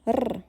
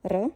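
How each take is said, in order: First: R held as a long trill; sustained rolled R. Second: R as one quick tap; brief, single-flap R; short R. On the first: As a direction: roll the R and keep it rolling. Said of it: "for a long R sound". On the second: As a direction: tap the R just once, very short. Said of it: "for a short sound". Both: Shown as a demonstration.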